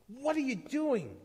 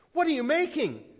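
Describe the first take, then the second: First: High, nervous questioning cry; anxious raised-pitch demand. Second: High, loud shouted demand; alarmed yell, pitched way up; louder shout. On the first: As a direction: call out nervously, pitched well up. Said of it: "one cried nervously". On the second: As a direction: shout the question at the stranger. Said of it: "another shouted even louder". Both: A narrator's reading.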